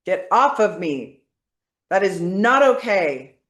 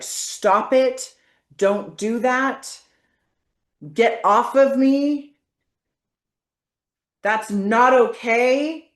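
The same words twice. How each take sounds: First: Firm, powerful push-back; forceful. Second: Firm, loud, slow commands; forceful demo. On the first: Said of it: "say this with force, with power now". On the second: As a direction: push them away with your voice. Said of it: "say this with force". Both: Shown as a demonstration.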